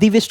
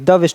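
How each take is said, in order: First: The word 'the' sounds like 'thee'. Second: The word 'the' sounds like 'thuh'. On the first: The speaker calls it wrong. "हम दी वेस्ट नहीं बोल सकते" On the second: The speaker calls it right. "द वेस्ट बोलेंगे"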